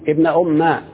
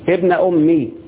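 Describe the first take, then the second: First: The final m carries a short a vowel. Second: The final m carries a short i vowel. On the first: "اللغة الثانية تحذف الياء وتفتح الميم" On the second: "اللغة الأولى هتحذف الياء وتكسر الميم"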